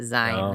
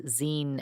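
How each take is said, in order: First: The word does not rhyme with magazine. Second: The word rhymes with the end of magazine. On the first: The speaker calls it wrong. "she pronounced it zine" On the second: The speaker calls it right. "as in like magazine"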